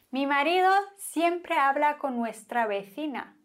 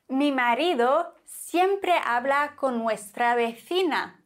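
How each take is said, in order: First: Fast jealous repeat. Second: Said in the usual way. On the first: Shown as a demonstration.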